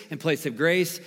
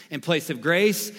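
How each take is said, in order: Both takes have the same delivery.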